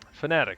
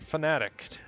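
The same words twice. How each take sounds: First: The word ends cleanly without a d sound. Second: The word ends with an added d sound. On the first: The speaker calls it right. "There's no silent D" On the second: The speaker calls it wrong. "I inserted a silent D at the end of Fanatic"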